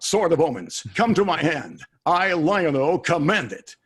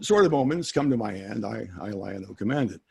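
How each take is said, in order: First: It is said dramatically, like a cartoon hero. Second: It is said plainly, like ordinary talk.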